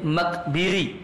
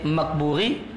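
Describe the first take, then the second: First: The vowel after the b is i. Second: The vowel after the b is u. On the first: "boleh Makbiri" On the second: "Ada tiga cara baca. Maka boleh Makburi"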